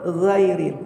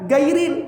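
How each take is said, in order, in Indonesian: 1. Kata ini diawali dengan bunyi gh serak di tenggorokan, seperti kumur-kumur. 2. Kata ini diawali dengan bunyi g keras biasa. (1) "Yang betul ghairil gha ghairu" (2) "bukan gairil, enggak boleh"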